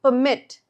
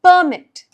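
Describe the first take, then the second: First: The stress is on the second syllable. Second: The stress is on the first syllable. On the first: It is a verb meaning to allow. "Verb form, we're stressing the second part" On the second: It is a noun meaning an official document. "every time it's in the noun form, we are stressing the first part"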